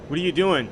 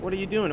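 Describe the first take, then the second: First: It sounds annoyed and accusing. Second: It sounds light and casual. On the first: You should be here instead. "You should be here. What why are you not here?" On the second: Just a friendly check-in. "she could take it as, "Hey, like what are you doing?""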